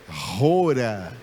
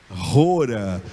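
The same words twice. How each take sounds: The two takes are said the same way.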